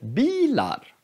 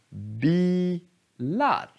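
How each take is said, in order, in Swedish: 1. Tonhöjden går upp och sedan ner. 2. Tonhöjden går ner och sedan upp. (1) "Inte bilar" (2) "Den går ner och sen upp"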